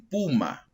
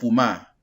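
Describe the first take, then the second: First: The stress is on the first syllable. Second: The stress is on the last syllable. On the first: The speaker calls it right. "es una palabra grave" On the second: The speaker calls it wrong. "no pumá"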